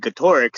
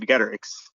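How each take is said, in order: First: Getorix as guh-TOR-ix; middle-syllable stress. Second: Getorix as GET-er-ix; first-syllable stress. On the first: Co-host favoring the intimidating version, middle-syllable stress. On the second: Co-host contrasting the less intimidating version, first-syllable stress. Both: Shown as a demonstration. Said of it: "sounds much more intimidating".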